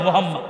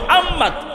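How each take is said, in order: First: The h is a plain breathy h. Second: The h is a tight throaty pharyngeal h. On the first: The name means a destroyed, lightless man. The speaker calls it wrong. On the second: The name means a praised great man. The speaker calls it right.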